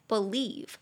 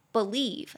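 No difference in how they are said.

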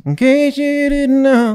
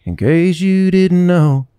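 First: Slow, higher nasal drawl; nasal singer imitation. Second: Said in the usual way. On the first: Shown as a demonstration. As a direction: sing it through the nose. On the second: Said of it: "Instead of, like".

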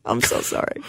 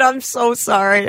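First: Breathless whispered apology; whispered sorry. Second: Said in the usual way. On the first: Real, not acted. Whispering an apology to cohost.

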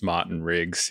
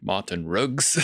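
First: Said in the usual way. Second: Put-on "Martin Riggs" in a South African accent, R dropped in Martin, Riggs nearer "Ruggs"; South African drug dealer accent. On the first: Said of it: "the drug dealer pronounces Martin Riggs". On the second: Mimicking the film's drug dealer to the co-host, South African accent. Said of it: "the way the, uh, the drug dealer pronounces".

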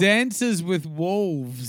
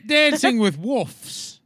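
First: "Dances with Wolves" slowly, with the L sounded in "Wolves"; correct title. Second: "Wolves" mockingly said like "woofs", loud and high; mocking mispronunciation. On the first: Shown as a demonstration. Corrects the misquoted film title. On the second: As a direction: tease with a loud, drawn-out "Wolves" that drops the L. Mocks co-host's pronunciation of wolves.

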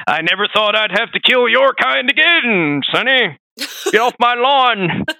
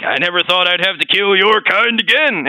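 First: Put-on cranky old man yelling, slow and high; grumpy grandpa chasing kids off; old prospector. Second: Imitating the game. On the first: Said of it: "He's like, Old Man Ishin". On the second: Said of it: "He's like".

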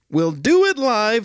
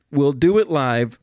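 First: Higher, shouted on DO; Bill O'Reilly rant. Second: Bill O'Reilly rant. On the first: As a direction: yell it like an anchor losing it. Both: Retold or imitated. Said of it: "the Bill O'Reilly Freakout".

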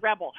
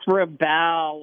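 First: "rebel" quoted with stress on the first syllable, REB-el, as in the noun; his wrong way. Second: "rebel" said slowly with stress on the second syllable, re-BEL, as in the verb. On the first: Retold or imitated. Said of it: "I think you said". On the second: Shown as a demonstration. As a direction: correct "rebel", weight on the last syllable, re-BEL. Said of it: "like the verb".

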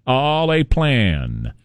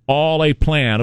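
First: "All a plan" spoken very slowly, word by word; slow knowing aside. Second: Said in the usual way. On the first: Acted. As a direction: draw out "All a plan" as if it's obvious.

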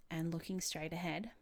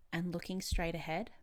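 The two takes are said the same way.

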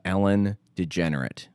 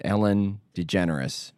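First: Ellen DeGenerate with a slip, DeGenerate instead of DeGeneres; mispronounced name. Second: Said in the usual way. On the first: Real, not acted. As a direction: say Ellen DeGenerate, with the ending as -erate.

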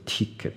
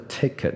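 First: "ticket" with a tense ee, like tee-ket; wrong vowel. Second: "Ticket" with a lax first vowel, toward teh-ket; correct first vowel. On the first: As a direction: demonstrate the mistaken ticket with long ee. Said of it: "不是ticket". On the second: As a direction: model Ticket with relaxed short i. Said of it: "想象成T A K E 那个take". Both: Shown as a demonstration.

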